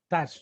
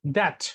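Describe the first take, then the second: First: That with the final t cut short and held back; American that. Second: That with a crisp, clearly released final t; British that. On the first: Teacher demoing the American that, t swallowed at the end. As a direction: say that and stop the t without releasing it. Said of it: "this is pronounced in America". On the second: Teacher demoing the British that, t crisp at the end. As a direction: say that with the t fully sounded at the end. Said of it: "this is pronounced in British". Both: Shown as a demonstration.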